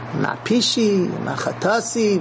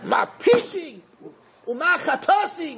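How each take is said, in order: First: It is read in a gentle, restrained way. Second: It is read in a strong, forceful way. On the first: The complaint is voiced with dignity and restraint. The speaker calls it right. "That's why I read it the way I did" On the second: The complaint is voiced in anger. The speaker calls it wrong. "maybe I should read it stronger"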